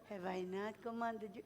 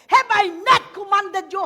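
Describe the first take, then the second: First: It is said softly and mildly. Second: It is said loudly, like thunder.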